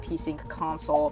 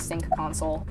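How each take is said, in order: First: A P sound is heard before sync. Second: No P sound is heard before sync. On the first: "Silent P doesn't work this way" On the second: "when I say sync, it sounds so wrong"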